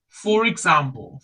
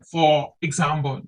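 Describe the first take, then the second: First: The r links into the next word. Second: The two words are said separately. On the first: The speaker calls it right. "they connect, they link R and ik" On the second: The speaker calls it wrong.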